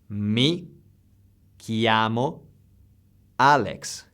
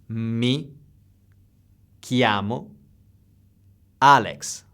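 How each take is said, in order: The two takes are said the same way.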